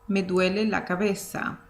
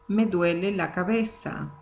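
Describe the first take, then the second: Both takes have the same delivery.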